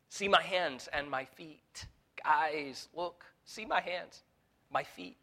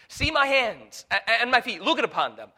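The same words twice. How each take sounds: First: Gentle entreaty. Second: Urgent Jesus. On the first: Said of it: "Look at what he entreats of them". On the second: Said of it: "he asks them to touch him". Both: Acted.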